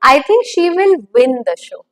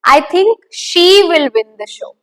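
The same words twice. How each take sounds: First: The stress falls on the word win. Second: The stress falls on the word she. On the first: She will win rather than lose. "What the outcome would be" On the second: It is she, not someone else, who will win. "Her. That's what I'm talking about"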